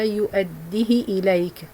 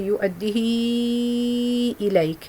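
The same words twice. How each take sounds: First: The vowel after the h is kept short. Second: The vowel after the h is held long. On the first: "just كسرة, just one count" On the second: "حفص will make uh, four uh, counts separated mad"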